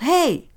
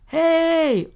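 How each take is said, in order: First: Short, high, loud shout; yelled. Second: Long, held, high loud holler; bellowing yell. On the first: Friend yells after a rock is thrown at them, shouting. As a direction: yell a sharp warning shout. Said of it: "My friend yelled". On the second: Unseen creature mimics the friend's shout, bellowing. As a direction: imitate a creature's drawn-out bellow. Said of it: "It sounded like it was yelling". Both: A narrator's reading.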